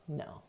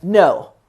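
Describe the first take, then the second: First: Very soft, gentle No; heart-open no. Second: Loud, firm No, hand up; definite no. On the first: Sitting heart open, a very soft gentle No. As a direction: let the No out softly, heart open. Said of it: "sit heart open and you're like". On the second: Hand up, a definite loud firm No. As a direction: shut it down with one firm No. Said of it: "a definite, like, "No". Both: Shown as a demonstration.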